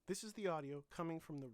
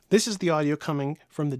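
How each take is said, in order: First: The voice is quieter, at lower volume. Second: The voice is louder, at higher volume. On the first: "so you can hear the difference in volume" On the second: "It's quite a bit louder"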